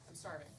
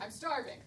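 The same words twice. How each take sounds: First: It is said plainly, without much force. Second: It is said with forceful, intense conviction.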